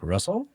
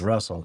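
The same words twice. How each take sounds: First: The name rises at the end like a question. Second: The name is said plainly with no rising tune. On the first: "it's got an intonation to it ... almost like a question" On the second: "She never says Russell"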